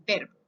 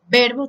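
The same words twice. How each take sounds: First: Said in the usual way. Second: "verbo" fuerte y marcado, con la R clara; verbo recalcado. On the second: Shown as a demonstration. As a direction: recalca la palabra "verbo" con la R bien pronunciada. ("verbo" dicho fuerte, con la R marcada) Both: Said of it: "Me faltó la R".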